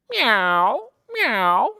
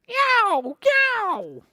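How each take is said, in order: First: Loud meowing meow; cat meow. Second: Very high, loud meow; tomcat meow. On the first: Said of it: "What sound does a cat say?". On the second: Storyteller meows as the tiger tomcat. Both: Acted.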